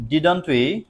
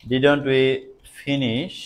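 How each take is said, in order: First: Slow, drawn-out dictation. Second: Said in the usual way. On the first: Shown as a demonstration. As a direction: spell it out for the class. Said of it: "slow dictation". (ধীরে ধীরে বলা) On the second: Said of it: "repeated at normal pace".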